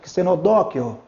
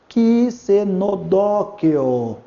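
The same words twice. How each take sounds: First: The word is said quickly. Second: The word is said very slowly. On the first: "Pronunciar mais rápido" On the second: "Mais devagar"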